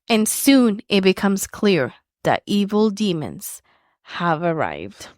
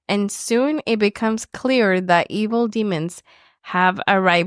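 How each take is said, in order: First: It is read slowly with dramatic intensity. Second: It is read quickly with little intensity. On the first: The speaker calls it right. "say it with intensity" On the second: The speaker calls it wrong. "you kind of rush through saying it"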